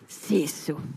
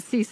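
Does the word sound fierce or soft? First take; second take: fierce; soft. First: The word is said fiercely and forcefully. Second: The word is said softly and gently. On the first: "the Finnish, they say it like this, ... It sounds scary and dangerous when you say it" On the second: "It's quite a soft word"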